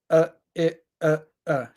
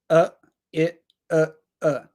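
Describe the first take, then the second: Both takes have the same delivery.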